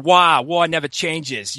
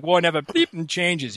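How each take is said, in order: First: Put-on slow, drawn-out Boston accent with the "r" dropped from "Wah"; "Wah" stretched the Boston way, as a joke; mock Boston accent. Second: Put-on Boston accent, slowed, with "bleeping" as a jokey stand-in; "Wah" said the Boston way, "bleeping" tossed in playfully; mock Boston accent. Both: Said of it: "I want the accent so bad".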